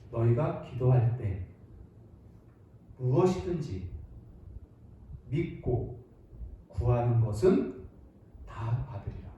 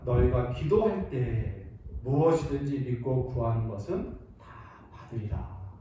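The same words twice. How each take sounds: First: It is read slowly and deliberately, word by word. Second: It is read at a normal, flowing pace.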